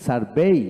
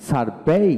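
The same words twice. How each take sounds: The two takes are said the same way.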